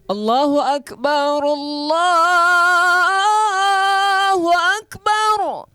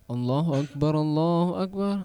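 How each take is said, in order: First: It is called out loudly and energetically. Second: It is called out softly and without energy.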